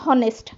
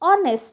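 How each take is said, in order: First: The word begins with an H sound. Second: The word begins with a vowel, no H sound. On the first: The speaker calls it wrong. "not honest" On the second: The speaker calls it right. "we have to pronounce this as honest"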